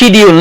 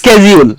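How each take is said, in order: First: The word begins with an sh sound. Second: The word begins with an sk sound. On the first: This is the British pronunciation. "এটা কিন্তু British" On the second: This is the American pronunciation. "আমেরিকানরা বলে"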